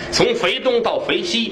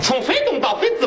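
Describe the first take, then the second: First: It is said in standard Mandarin pronunciation. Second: It is said in Hefei dialect pronunciation. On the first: "这是咱们说" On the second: "用合肥话一说"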